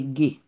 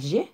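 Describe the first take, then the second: First: The letter starts with a hard 'g' sound. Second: The letter starts with a soft 'zh' sound. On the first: The speaker calls it right. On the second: The speaker calls it wrong. "Li pa G"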